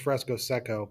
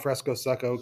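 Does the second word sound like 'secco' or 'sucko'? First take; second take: secco; sucko. First: The second word is said as plain 'secco'. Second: The second word is said like 'sucko'. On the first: This is the proper name of the technique. "the actual term is" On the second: The technique is worse than the other one. "we call it Fresco Secco because it sucks"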